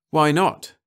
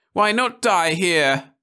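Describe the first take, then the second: First: High, loud, rising question; eager. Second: High, slow shrill cry; shrill above the laughter; wife's shrill despairing cry. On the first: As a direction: challenge it eagerly. Hugh hopefully counters refusal. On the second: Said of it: "voice rose shrill". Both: A narrator's reading.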